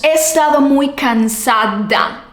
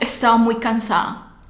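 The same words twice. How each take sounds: First: The d sounds are fully and carefully pronounced. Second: The d sounds are dropped and words run together. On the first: The speaker calls it wrong. "No decimos" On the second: The speaker calls it right.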